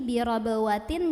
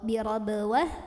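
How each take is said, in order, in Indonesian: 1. Kata ini berakhiran -atin penuh. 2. Kata ini berakhiran -ah lembut.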